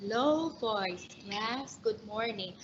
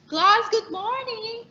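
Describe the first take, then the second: First: Low, much softer teacher greeting; low voice demo. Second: Much higher and louder greeting; high pitch demo. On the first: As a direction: greet the class in a low, soft voice. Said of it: "or a teacher will have a low voice". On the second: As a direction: sing out the greeting high and bright. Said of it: "A teacher may have a high pitch". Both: Shown as a demonstration.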